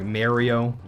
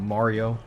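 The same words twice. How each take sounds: First: The A vowel is said the Canadian way. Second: The A vowel is said the non-Canadian way. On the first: This is how the Canadian coworker said it. The speaker calls it wrong. "a Canadian guy ... the way he used his A's" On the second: This is how the speaker prefers it said. The speaker calls it right. "not Mario"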